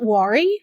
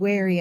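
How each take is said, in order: First: The word is said like 'worry'. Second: The word is said like 'wary'. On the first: The speaker calls it wrong. "called it worry" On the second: The speaker calls it right. "didn't know how to say wary, W A R Y"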